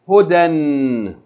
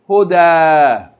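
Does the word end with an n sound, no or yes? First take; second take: yes; no. First: The word ends with an n sound. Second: The word ends on a long a vowel. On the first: The reading continues without stopping. "If we continue reading, we would say hudan" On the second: The reading stops on this word. "If we stop on it, we will say, Huda"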